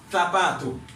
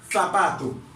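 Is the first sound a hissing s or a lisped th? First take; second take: th; th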